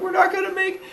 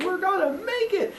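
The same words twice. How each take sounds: First: Very high falsetto squeal; mock kid panic. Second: Hushed, very high squeal; mock little-boy squeak, kept soft; hopeful kid cheer. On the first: Boy being chased beside his brother, high mock-panicked squeal. Losing the race, acted. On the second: Boy to his brother as they race along, hopeful high squeak. Brothers bonding while running, acted.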